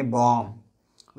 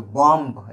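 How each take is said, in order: First: "बॉम्ब" ending on a held m, no b; correct silent b. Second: "बॉम्ब" with the final b released; wrong pronunciation. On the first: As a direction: drop the final b of "बॉम्ब", bom. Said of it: "बोलेंगे बॉम्ब". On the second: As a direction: sound the silent b at the end of "बॉम्ब". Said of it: "ऐसे नहीं बोलेंगे". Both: Shown as a demonstration.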